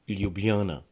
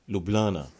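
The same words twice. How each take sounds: First: The J sounds are clearly pronounced. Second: The J sounds are left out. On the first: This is the fully correct form. "If you want to pronounce it very correctly, you would want to say Ljubljana" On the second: This is how locals naturally say it. "We the locals, however, we like to ignore J's in the word"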